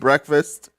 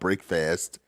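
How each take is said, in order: First: The first syllable sounds like 'breck', one word. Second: The first syllable sounds like 'brake', two words. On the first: The speaker calls it right. "this is how it's pronounced. Breck" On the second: The speaker calls it wrong. "Comes back talking about break fast"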